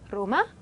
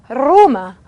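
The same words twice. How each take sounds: First: The r is a single light tap. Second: The r is rolled with several strong trills. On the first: The speaker calls it right. "이렇게 발음을 해주시면 되죠" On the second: The speaker calls it wrong. "이렇게 하는 것이 아니라"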